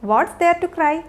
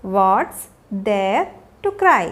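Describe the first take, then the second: First: Said in the usual way. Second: Slow, broken into separate pieces; word by word. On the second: Shown as a demonstration. Teacher showing learners a question for a crying child, word by word. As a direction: pause after "What's" and after "there".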